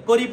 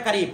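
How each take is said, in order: First: "করিব" with a rounded o in the first syllable; wrong pronunciation. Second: "কারিব" with an open a in the first syllable; correct pronunciation. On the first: Teacher showing students what not to say, "করিব" with an o. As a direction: say "করিব" as korib, with an o. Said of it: "এরপরে করিব বলবে না". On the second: Teacher correcting students' Farsi reading, "কারিব" with open a. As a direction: say "কারিব" as karib, not korib. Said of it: "করিব বলবে না". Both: Shown as a demonstration.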